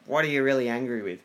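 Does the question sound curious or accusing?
accusing. It sounds like a harsh, accusing question.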